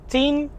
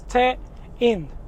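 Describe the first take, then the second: First: The name is one short syllable, like tin. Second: The name is split into two syllables. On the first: "a lot of people pronounce it Tin" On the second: "So it's Te-in"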